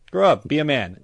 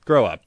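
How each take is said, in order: First: "Grow up." pitched high and loud; exasperated shout. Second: Firm, louder "Grow up."; firm command. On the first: Scolding grown men who call themselves Lil, an exasperated shouted "Grow up.". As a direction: bark "Grow up." at him, fed up. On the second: Scolding grown men who call themselves Lil, a firm "Grow up.". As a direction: tell him flatly to "Grow up.". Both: Acted.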